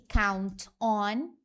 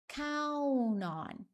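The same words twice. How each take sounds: First: The two words are said separately, with the T. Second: The words run together, T dropped, like one word.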